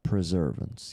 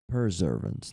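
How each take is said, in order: First: The word begins with the sounds of 'preserve'. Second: The word begins with the sounds of 'persevere'. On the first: The speaker calls it wrong. "not preservance. it's like not like something is preserved" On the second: The speaker calls it right. "so perseverance"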